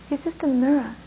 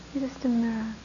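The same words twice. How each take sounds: First: Said in the usual way. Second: The line repeated much softer, hushed; a soft, sincere echo of the line. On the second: Shown as a demonstration. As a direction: let it fall away into quiet. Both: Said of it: "repeated softer".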